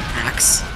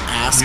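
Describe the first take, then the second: First: The word ends with a 'k' then 's' sound. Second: The word ends with an 's' then 'k' sound. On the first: "original English pronunciation of ask is in fact ... axe" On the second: "is in fact not ask"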